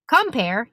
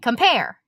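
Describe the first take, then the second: First: The stress is on the first syllable. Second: The stress is on the second syllable. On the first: The speaker calls it wrong. "you don't say compare" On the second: The speaker calls it right. "you say compare"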